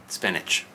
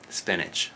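The two takes are said the same way.

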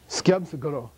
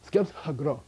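First: The word starts with an sk cluster. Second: The word starts with an sk cluster.

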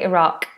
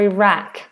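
First: It is said with a British pronunciation. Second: It is said with an American pronunciation. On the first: "We just say Iraq here in British English" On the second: "same Iraq or Iraq for American English"

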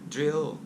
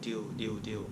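First: The r and final l sounds are kept. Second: The r and final l sounds are dropped. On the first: The speaker calls it right. "อ่านออกเสียงดีๆนะ" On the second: The speaker calls it wrong. "คนไทยหลายคนบอกว่าดิวอันนั้นความหมายมันเพี้ยนไปแล้ว"

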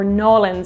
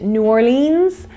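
First: The name is shortened further, with the r dropped. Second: The name is said in full, as separate parts. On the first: The speaker calls it right. "if you're trying to be even more authentic" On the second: The speaker calls it wrong. "I pronounced it New Orleans with my Irish accent"

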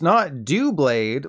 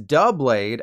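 First: The first syllable sounds like 'do'. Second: The first syllable sounds like 'duh'. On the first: The speaker calls it wrong. "like do you want to go on a date with me" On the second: The speaker calls it right. "as in duh"

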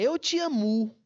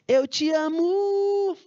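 First: The stress falls on the usual syllable. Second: The stress falls on a shifted syllable. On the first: The speaker calls it right. "É eu te amo" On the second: The speaker calls it wrong. "A pessoa diz assim, ó"

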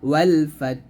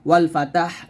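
First: The t and h are closed with no vowel. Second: A vowel is added between the t and h. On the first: The speaker calls it right. "বলতে হবে ওয়াল ফাত" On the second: The speaker calls it wrong. "এরকমভাবে আমরা ভুল উচ্চারণ করি"

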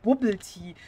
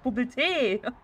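First: Tea is pronounced the English way. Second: Tea is pronounced the German way. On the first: The speaker calls it wrong. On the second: The speaker calls it right.

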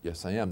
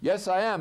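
First: It is said at a quieter level. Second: It is said at a louder level.

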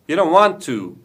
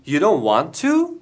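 First: The voice falls at the end like a statement. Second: The voice rises at the end like a question. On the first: It states that the person does not want to. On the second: It asks whether the person does not want to.

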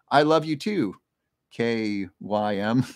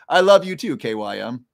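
First: It is said with little certainty. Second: It is said with strong certainty. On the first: The speaker calls it wrong. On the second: The speaker calls it right.

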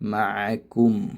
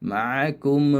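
First: The final m stops cleanly as the lips close. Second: The final m trails into an added emotional sound. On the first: The speaker calls it right. "ഓതേണ്ടത് മാക്കും, ചുണ്ട് പൂട്ടുക" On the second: The speaker calls it wrong. "ഒരു എക്സ്പ്രഷൻ അഡീഷണലായിട്ട് ഒരു ഇമോഷൻ ചേർക്കുകയാണ്"

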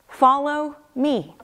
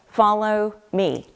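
First: The stress falls on the word me. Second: The stress falls on the word follow. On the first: The one to be followed is what matters. "I don't really place the emphasis on that simple two-letter word, me" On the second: The act of following is what matters. "I always place the emphasis on follow"

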